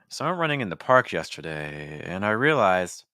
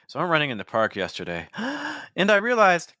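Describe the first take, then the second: First: It flows on one breath without pausing. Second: There is a breath pause after 'yesterday'. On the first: The speaker calls it right. "instead of pausing for breath, I'm still on the same breath" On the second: The speaker calls it wrong. "instead of saying"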